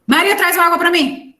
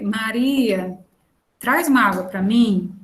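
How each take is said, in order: First: Calling Maria high and loud; a sharp, raised order for water; near shout. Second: Said in the usual way. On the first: Shown as a demonstration. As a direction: bark the request across the room, much higher and louder. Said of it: "isso é completamente diferente". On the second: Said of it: "Outra coisa é eu dizer".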